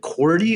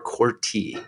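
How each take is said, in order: First: The middle consonant sounds like a D. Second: The middle consonant sounds like a T. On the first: "with a D" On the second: "with a T"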